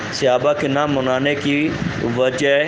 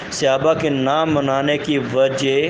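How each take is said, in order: No difference in how they are said.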